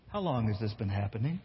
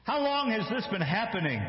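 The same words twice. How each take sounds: First: Lower, tired and exasperated ask; weary question. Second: Put-on higher, earnest asking of the boy; concerned question. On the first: Jesus asking the father, low and exasperated. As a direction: ask it flatly, fed up. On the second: Jesus asking the father, high and concerned. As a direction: ask it with worried concern. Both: Shown as a demonstration. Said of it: "Or maybe Jesus says".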